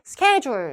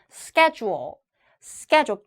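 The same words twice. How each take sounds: First: "schedule" said as Korean seu-ke-jul; careless Korean loanword pronunciation. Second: "schedule" as SKEH-joo-uhl with a dark final l; English-style pronunciation. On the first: Teacher mimicking lazy learners, "schedule" as a Korean loanword. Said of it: "이거 너무 심하잖아요". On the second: Teacher correcting learners, "schedule" said the English way. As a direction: open the first vowel and round off "schedule". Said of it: "영어는 영어처럼". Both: Shown as a demonstration.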